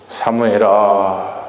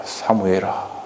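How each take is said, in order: First: Very slow, drawn-out call of the name; God calling the boy Samuel slowly; slow divine call. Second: Lower, much softer falling call; God's second call to Samuel fading. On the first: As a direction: stretch the name out gently. God calls Samuel at night. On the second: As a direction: let the name sink away quietly. God calls Samuel again. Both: Acted.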